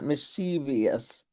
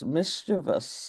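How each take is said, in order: First: The word is said with four syllables. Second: The word is said with three syllables. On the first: The speaker calls it wrong. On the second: The speaker calls it right. "So the word has three syllables"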